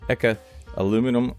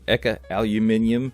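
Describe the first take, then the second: First: Aluminum is said with four syllables, American style. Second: Aluminium is said with five syllables, British style. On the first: The speaker calls it wrong. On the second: The speaker calls it right.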